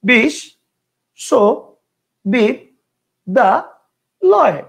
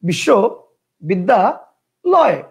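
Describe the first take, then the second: First: The word is broken into five separate chunks. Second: The word is broken into three separate chunks. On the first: "কয়টা হইলো? পাঁচটা।" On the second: "কয়টা হইলো? তিনটা।"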